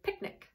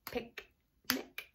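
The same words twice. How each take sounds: First: Said in the usual way. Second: "Picnic" split softly as pic, pause, nic; "Picnic" very soft, syllable by syllable; clapped-out syllables. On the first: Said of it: "Clap the word picnic". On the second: Shown as a demonstration. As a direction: break "Picnic" into two hushed beats. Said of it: "we're gonna clap them out".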